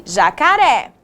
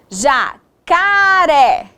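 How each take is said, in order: First: Said in the usual way. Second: "Jacaré" very slow, each syllable stretched apart; sounding out. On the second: Shown as a demonstration. Teacher sounding out word.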